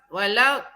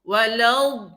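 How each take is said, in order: First: The consonant is said thin and light. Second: The consonant is said thick and heavy. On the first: The speaker calls it wrong. "jangan walad walad walad, tak boleh, tak cukup" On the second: The speaker calls it right. "Walad tebal"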